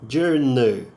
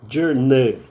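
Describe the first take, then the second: No difference in how they are said.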